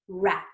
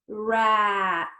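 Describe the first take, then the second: First: The word is said quickly. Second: The word is stretched out slowly.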